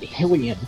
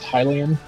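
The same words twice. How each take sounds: First: The first syllable does not sound like 'high'. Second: The first syllable sounds like 'high'. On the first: It does not match the name Hyrule. The speaker calls it wrong. "everyone I knew always pronounced it Hylian, and I'm like, well, that doesn't make sense" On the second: It matches the name Hyrule. The speaker calls it right. "I was totally right about it being pronounced Hylian"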